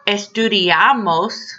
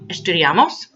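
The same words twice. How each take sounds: First: The voice falls at the end. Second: The voice rises at the end. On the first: We study. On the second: Should we study?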